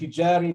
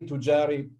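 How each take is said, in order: First: The first vowel is an i sound. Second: The first vowel is a u sound. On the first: "E U in this word" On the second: "E U in this word"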